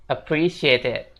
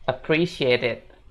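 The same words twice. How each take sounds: First: The two words are linked together. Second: The two words are linked together.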